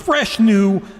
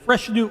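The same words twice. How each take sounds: First: It is read in a put-on radio announcer voice. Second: It is read in a plain, natural voice.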